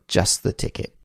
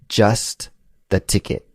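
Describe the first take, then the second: First: The phrase is said quickly with sounds reduced. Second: The phrase is said at a careful, full pace.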